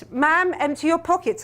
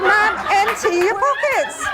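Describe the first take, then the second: First: Said in the usual way. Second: Slow, stern, insistent guard order; a slow, stern repeat of the order; mock stern guard. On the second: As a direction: lay down the law like airport security.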